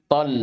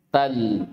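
First: "Tal" with a heavy, backed T, vowel near o; emphatic Arabic ta. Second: "Tal" with a plain dental T and open a; light Arabic ta. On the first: Teacher contrasts letters for students, "Tal" with heavy emphatic ط. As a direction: open "Tal" on emphatic ط, like "Tol". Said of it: "Huna harf ta fi awalil kalima". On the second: Teacher contrasts letters for students, "Tal" with light ت. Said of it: "istami'u qabla an taqra'u". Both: Shown as a demonstration.

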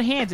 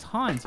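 First: Hans said like English "hands"; short "a" in Hans, as in "hand"; rejected English pronunciation. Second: Hans with an open "ah", like "hahns"; German-style "Hahns" for Hans; corrected German pronunciation. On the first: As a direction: say Hans to rhyme with "cans". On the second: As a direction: say Hans the German way, rhyming with "bonds". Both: Shown as a demonstration. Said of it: "same name pronounced different ways".

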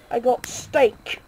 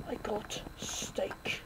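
First: Said in the usual way. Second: Breathy unvoiced repeat, slow; whisper. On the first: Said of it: "repeated as whisper". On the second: Shown as a demonstration. Gamer repeating I got steak as a whisper. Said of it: "whispered repeat".

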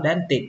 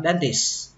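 First: "dentist" mispronounced as "dentit", with no s; dropped S sound. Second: "dentist" said as "dentis", ending on the hiss of s; dropped final T. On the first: Teacher demonstrates wrong "dentist" to learners, s missing. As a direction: cut the s out of "dentist", stopping on t. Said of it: "tuyệt đối không được bỏ âm sờ". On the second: Teacher shows allowed variant "dentist" without t, ends on s. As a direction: leave the t off the end of "dentist". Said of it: "bỏ âm T đi cũng được". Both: Shown as a demonstration.

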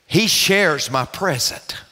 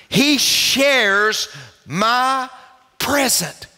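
First: Said in the usual way. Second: "He shares my present" higher, broken word by word; emphatic repeat. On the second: Real, not acted. Preacher repeating his point to the congregation, slow and emphatic. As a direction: draw out "He shares", then pause before "my" and "present".

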